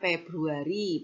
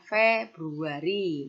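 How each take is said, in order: First: The word begins with a p sound. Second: The word begins with an f sound. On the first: The speaker calls it wrong. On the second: The speaker calls it right.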